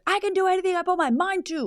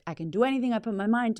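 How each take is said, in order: First: It is said very loudly and energetically. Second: It is said louder, with more energy.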